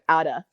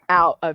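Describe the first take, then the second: First: The words are run together into one reduced word. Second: The two words are said fully and separately. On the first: "They'd be like" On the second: "But they wouldn't say out of here"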